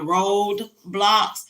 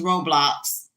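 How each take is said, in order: First: The first part sounds like the word road. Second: The first part sounds like row, without a d. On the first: The speaker calls it wrong. "I was calling it Road Blocks" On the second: The speaker calls it right. "So now I'm saying it correctly"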